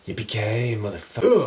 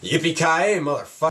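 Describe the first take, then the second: First: The line is said calmly, not screamed. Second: The line is screamed loudly.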